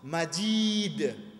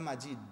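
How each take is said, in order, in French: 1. La voyelle est prononcée longue. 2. La voyelle est prononcée courte. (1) "il y a une longue voyelle ici" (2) "Pas Majid"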